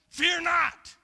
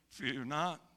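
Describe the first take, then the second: First: It is said forcefully to grab attention. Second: It is said calmly and plainly.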